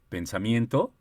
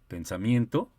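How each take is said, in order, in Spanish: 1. El tono sube al final de la palabra. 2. El tono sube al final de la palabra.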